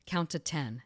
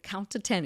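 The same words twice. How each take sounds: First: Said in the usual way. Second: A touch of nervous urgency, higher. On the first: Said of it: "I wake up out of anesthesia and he's like". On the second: Retold or imitated. Surgeon to groggy patient not answering, mildly nervous. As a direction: imitate an anxious surgeon, voice lifted. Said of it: "sounding nervous".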